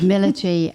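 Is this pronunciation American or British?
British. It is said with a British pronunciation.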